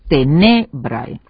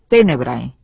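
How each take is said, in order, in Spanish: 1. El acento está en la segunda sílaba. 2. El acento está en la primera sílaba. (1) "Las penúltimas átonas seguidas de un grupo de oclusiva más R se acentúan en el latín hablado" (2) "en latín clásico tenemos tenebrae"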